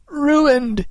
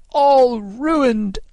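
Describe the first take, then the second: First: High, wailing cry of dismay; anguished cry. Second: High, drawn-out wail; anguished cry. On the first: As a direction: cry out in despair. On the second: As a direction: wail it in despair, leaning on ALL. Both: A narrator's reading. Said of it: "he cried in anguish".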